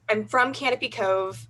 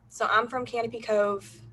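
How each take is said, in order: First: It is spoken in a neutral American accent. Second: It is spoken in a Southern American accent. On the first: "I can't keep it up" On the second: "This sounds really weird"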